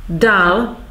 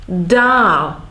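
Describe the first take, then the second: First: Short "a" in "Dal"; short vowel. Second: Long, held "á" in "Dál"; long vowel. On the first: Teacher contrasting Czech word meanings, short "a" in "Dal". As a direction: keep the vowel of "Dal" brief. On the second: Teacher contrasting Czech word meanings, long "á" in "Dál". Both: Shown as a demonstration. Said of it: "long and short vowels".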